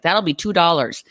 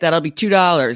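First: It is said in a Minnesotan accent. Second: It is said in a New York accent. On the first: The speaker calls it right. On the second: The speaker calls it wrong.

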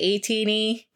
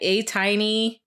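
First: The middle vowel sounds like 'ee'. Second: The middle vowel sounds like 'eye'. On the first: This is the speaker's own way of saying it. "I say A-Teeny" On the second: This is how some other people say it. "Some people say A-Tiny"

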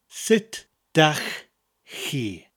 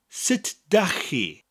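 First: It is said slowly. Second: It is said at normal speed.

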